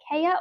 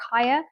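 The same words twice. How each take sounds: First: Kaya said as KAY-uh; Kaya, first syllable rhyming with "day"; alternative pronunciation. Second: Kaya said as KY-uh; Kaya, first syllable rhyming with "sky"; chosen pronunciation. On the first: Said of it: "is it Kaya or Kaya?". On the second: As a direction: say Kaya with an "eye" first vowel. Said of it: "I'm gonna say Kaya". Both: Shown as a demonstration.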